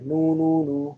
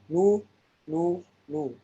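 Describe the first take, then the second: First: The lips stay rounded through joined syllables. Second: The lips reset between each separate syllable. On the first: "Ada yang lanjut aja" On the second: "Ada yang maju mundur maju mundur ya"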